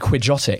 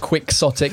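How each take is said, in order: First: The middle consonant is a throaty sound. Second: The middle consonant is a 'ks' sound. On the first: "otherwise it would be quijotic" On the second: "they've decided to spell it with an X"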